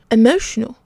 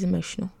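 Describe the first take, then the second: First: Loud, higher, disbelieving echo; raised, incredulous one-word retort. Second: Said in the usual way. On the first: A narrator's reading. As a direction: throw the word back in disbelief. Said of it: "the stranger said incredulously". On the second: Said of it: "Amelia said".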